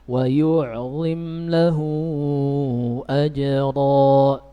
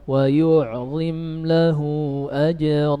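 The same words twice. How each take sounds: First: The vowel of 'lahu' is held for four beats. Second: The vowel of 'lahu' is held for two beats. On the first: "kita baca empat" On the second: "Kita baca dua"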